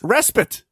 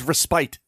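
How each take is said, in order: First: The second syllable does not sound like 'spite'. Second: The second syllable sounds like the word 'spite'. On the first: The speaker calls it right. "How's it pronounced" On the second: The speaker calls it wrong. "as in to spite again"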